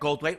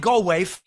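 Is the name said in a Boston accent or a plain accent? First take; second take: plain; Boston. First: The name is said in a plain accent. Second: The name is said in a Boston accent.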